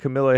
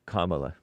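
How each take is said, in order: First: The name is said like Camilla. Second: The name is said like Kamala. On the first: The speaker calls it wrong. "he spelled it Camilla. That's why I pronounced it that way" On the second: The speaker calls it right. "The proper way"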